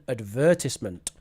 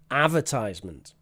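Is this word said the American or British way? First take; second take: British; American. First: It is said with the British pronunciation. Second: It is said with the American pronunciation. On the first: "So the British pronunciation" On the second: "That is the American pronunciation"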